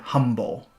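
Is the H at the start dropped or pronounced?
pronounced. The word begins with an audible H sound. "he is pronouncing the word humble"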